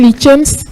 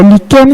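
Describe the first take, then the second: First: The word is said with an English pronunciation. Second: The word is said with a French pronunciation. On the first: English speakers tend to use this form. "lichens c'est souvent utilisé par les anglophones" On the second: French speakers tend to use this form. "lichen c'est utilisé par les francophones"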